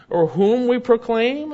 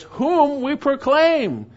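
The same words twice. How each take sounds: First: Said in the usual way. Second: WHOM drawn out high, slow and loud; emphatic stress on WHOM. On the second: Shown as a demonstration. Preacher showing the congregation the Greek emphasis, emphatic WHOM. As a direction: hit "whom" hard and stretch the phrase. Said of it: "it's emphatic, by the way".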